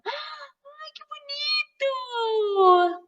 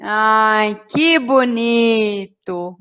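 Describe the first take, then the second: First: High, drawn-out gushing mother; stretched, soft high-pitched admiration; delighted praise. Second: Slow, drawn-out ironic disapproval; mother catching her child making a mess; sarcastic scolding. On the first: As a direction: coo with delight over a child's drawing. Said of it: "Elogiando, feliz, alegre". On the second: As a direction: stretch it out in mock admiration. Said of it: "aí ela olha pro filho e vai falar essa frase". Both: Shown as a demonstration.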